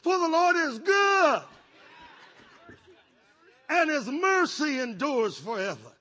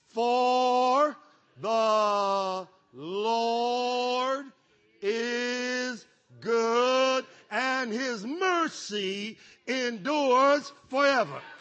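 First: It is said at a normal pace. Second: It is said slowly and drawn out.

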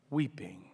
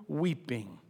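No difference in how they are said.

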